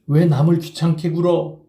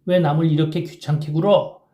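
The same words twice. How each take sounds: First: Louder, mocking repeat of the girl's line; scornful mockery. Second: Higher lady's voice, sweet as an oriole. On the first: Kim mocking the schoolgirl's refusal, scornful and louder. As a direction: sneer her words back. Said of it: "빌어먹을 깍쟁이 같은 년". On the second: Kim mimicking the schoolgirl who refused him, sweet oriole voice. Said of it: "정말 꾀꼬리 같은 소리를 내었다". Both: A narrator's reading.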